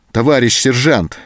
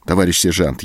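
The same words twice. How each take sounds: First: Higher, louder imploring call; pleading cry. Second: Said in the usual way. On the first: A narrator's reading. Anton implores the sergeant, pleading loudly. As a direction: beg him urgently. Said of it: "взмолился Антон".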